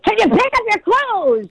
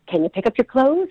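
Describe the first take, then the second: First: It is said angrily, yelling. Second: It is said kindly and calmly.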